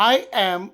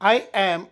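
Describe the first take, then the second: No difference in how they are said.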